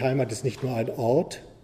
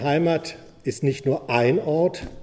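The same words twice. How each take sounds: First: The word Ort carries the main stress. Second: The word ein carries the main stress. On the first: Home need not be a place at all. "man kann es auf zwei Arten lesen" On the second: There can be more than one home. "wenn man es so betont"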